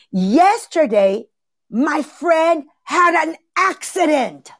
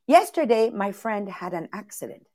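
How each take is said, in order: First: Slow and higher, weight on "had"; dramatic emphasis. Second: Much softer, throwaway "my friend had an accident"; matter-of-fact. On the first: Teacher shows how emphasis makes the accident sound huge, slow heavy stress on "had". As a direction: drag out "my friend had an accident", leaning hard on "had". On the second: Teacher shows the same sentence where nothing much happened, quiet and offhand. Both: Shown as a demonstration. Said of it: "Same sentence".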